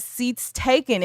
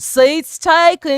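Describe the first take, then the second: First: Slow, lightly Southern "Seats taken,"; country boy accent. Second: Slow, louder, higher Southern drawl on "Seats taken."; country boy accent. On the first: Re-doing the boy's line for the chat in a slow Southern drawl. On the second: Showing the chat the boy's accent in a louder, higher drawl. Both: Retold or imitated. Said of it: "mimicking the way the boy says".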